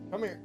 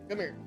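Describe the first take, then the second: No difference in how they are said.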